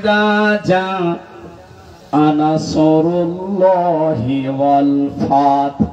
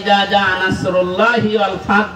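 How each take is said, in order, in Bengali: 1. nasr-এর s ভারী ও গোলাকার। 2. nasr-এর s হালকা ও সাধারণ।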